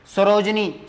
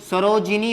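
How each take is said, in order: First: सरोजनी with no i after the j; wrong form. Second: सरोजिनी with a short i after j; correct form. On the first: Teacher showing students the misspelt word, wrong form सरोजनी, sa-roj-ni. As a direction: say सरोजनी as three syllables, sa-roj-ni. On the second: Teacher correcting the word for students, correct form सरोजिनी, sa-ro-ji-ni. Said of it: "सरोजिनी होता है". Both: Shown as a demonstration.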